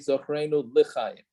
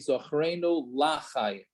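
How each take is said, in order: First: The vowel after the L is a short e. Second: The vowel after the L is a full a. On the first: It means remember us for life. The speaker calls it right. "very careful to say" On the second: It means remember us not for life. The speaker calls it wrong. "make sure you don't say"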